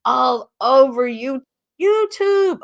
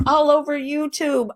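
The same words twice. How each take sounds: First: "YouTube" shot way up high, drawn out and slower; emphatic repeat. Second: Said in the usual way. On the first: Shown as a demonstration. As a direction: stretch "YouTube" into a high squeal. Repeating his threat for emphasis.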